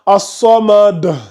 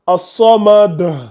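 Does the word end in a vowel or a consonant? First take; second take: consonant; consonant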